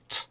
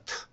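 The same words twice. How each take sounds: First: The t is said the English way. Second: The t is said the Korean way. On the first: The speaker calls it right. "근데 영어는 트" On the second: The speaker calls it wrong. "이걸 만약 한국어식으로 발음한다면 트가 되겠습니다"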